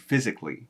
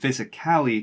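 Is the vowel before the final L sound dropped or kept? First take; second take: dropped; kept. First: The vowel before the L sound is dropped. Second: The vowel before the L sound is fully said. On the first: "to physically" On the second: "we can reduce the ending from physically"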